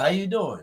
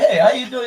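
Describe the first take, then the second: First: It is said in his casual everyday voice. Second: It is said in a polished telemarketer voice.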